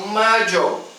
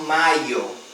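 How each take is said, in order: First: It is said with an Argentine Spanish accent. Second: It is said with a Spain Spanish accent. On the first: "Na Argentina eles falam maio" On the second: "na Espanha eles falam maio. Então o, o Y na Espanha tem som de I"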